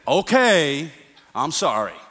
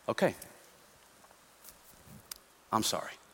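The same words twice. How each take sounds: First: The apology sounds mocking and insincere. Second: The apology sounds soft and sincere. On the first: The speaker does not really mean the apology. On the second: The speaker genuinely regrets the wrong. "and humility"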